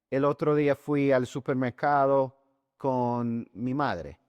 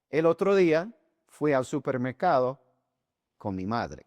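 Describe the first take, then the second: First: It is said in one continuous stretch. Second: It is said in short segments with pauses.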